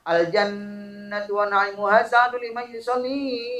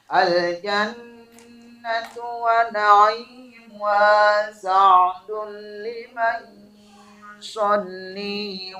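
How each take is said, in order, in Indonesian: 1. Panjang pendek vokal diabaikan dan bunyinya terdengar berantakan. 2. Panjang pendek vokal dijaga dan bunyinya terdengar rapi. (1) "Nah ini ini kan jadi ngacau" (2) "Rapi kan?"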